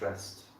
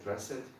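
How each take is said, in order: First: The ending is pronounced as a single t sound. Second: The ending is pronounced as an extra syllable. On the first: The speaker calls it right. "the D has like a T sound" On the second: The speaker calls it wrong. "I think I heard you say uh, dress it"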